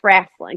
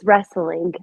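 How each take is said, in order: First: It uses the local slang pronunciation. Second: It uses the standard pronunciation. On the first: "we do a little slang and it's wrestling" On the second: "I know how to say it correctly"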